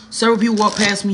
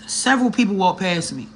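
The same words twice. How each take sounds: First: "Several people walk past me" again, louder and faster; emphatic repeat. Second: Said in the usual way. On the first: Real, not acted. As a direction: push it harder the second time.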